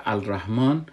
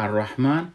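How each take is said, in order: First: الرحمن as "al-rahman", with the written L audible; spelling pronunciation of الرحمن, L not merged into the R; lam sounded as written. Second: الرحمن as "ar-rahman", L dropped and R doubled; silent lam. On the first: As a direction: say الرحمن letter by letter in its article, L then R. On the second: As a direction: say الرحمن with the article's L merged into a long R. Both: Shown as a demonstration.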